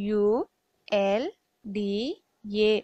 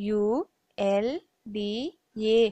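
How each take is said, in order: The two takes are said the same way.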